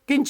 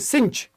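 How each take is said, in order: First: The word begins with a K sound. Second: The word begins with an S sound. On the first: The speaker calls it wrong. "किंच नहीं" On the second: The speaker calls it right. "इसको बोलेंगे बेटा सिंच"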